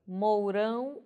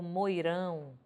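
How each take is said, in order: First: "mourão" com ditongo OU claro; variante com OU. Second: "moirão" com ditongo OI claro; variante com OI. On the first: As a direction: marque o U de "mourão". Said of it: "ora grafado com ou". ("mourão" dito mou-rão) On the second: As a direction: marque o I de "moirão". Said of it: "ora vou ter grafado com oi". ("moirão" dito moi-rão) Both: Shown as a demonstration.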